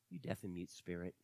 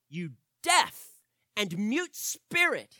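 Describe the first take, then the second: First: The command sounds timid and lacking any authority. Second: The command sounds forceful and full of authority. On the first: The speaker has no real authority over the demon. The speaker calls it wrong. "I do not believe Jesus said" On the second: Jesus spoke with authority over the demon. The speaker calls it right. "I read it that way purposefully"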